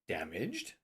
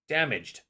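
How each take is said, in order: First: It is said as a question. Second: It is said as a plain statement.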